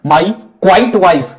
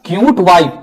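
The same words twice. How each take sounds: First: क्वाइट said kwait; quite, the wrong word. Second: क्यूट said kyoot; cute, not quite. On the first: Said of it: "कर दिया अर्थ का अनर्थ". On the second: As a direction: say क्यूट with clear y glide. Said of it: "उसको लिखना था". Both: Shown as a demonstration.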